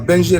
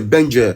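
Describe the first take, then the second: First: The name is said with a French pronunciation. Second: The name is said with an English pronunciation. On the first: "ça c'est la prononciation en français" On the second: "sinon c'est Benji en anglais"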